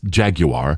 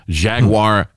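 First: The word is said in a British way. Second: The word is said in a non-British way. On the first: The speaker calls it right. "It's Jaguar" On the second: The speaker calls it wrong. "I mispronounced that for our UK people"

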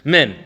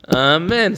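First: The opening ah sound is left off. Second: Every sound of the word is pronounced. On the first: The word is rushed and not started properly. The speaker calls it wrong. "He doesn't say the ah" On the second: The word is answered properly and with intent. The speaker calls it right. "say it correctly"

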